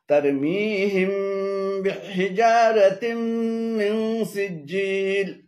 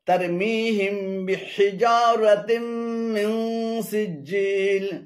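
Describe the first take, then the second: The two takes are said the same way.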